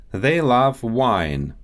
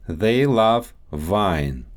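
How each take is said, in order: First: Said in the usual way. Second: Russian accent, "wine" said as "vine". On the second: Shown as a demonstration. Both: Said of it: "W and V sounds".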